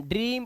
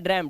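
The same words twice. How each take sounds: First: ड्रीम with a long "ee"; correct "ee" vowel. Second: ड्रैम with an open short "e"; wrong vowel. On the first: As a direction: say ड्रीम as "dreem". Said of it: "ई की आवाज है". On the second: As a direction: misread it as ड्रैम, "drem". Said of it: "इसे ड्रैम नहीं पढ़ रहे". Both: Shown as a demonstration.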